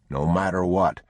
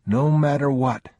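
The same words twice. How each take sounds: First: Said in the usual way. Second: Put-on higher, louder child's echo; young boy. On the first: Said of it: "the man said". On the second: A narrator's reading. Boy promising his father not to let go. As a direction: repeat it like a solemn promise from a small boy. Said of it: "the boy said".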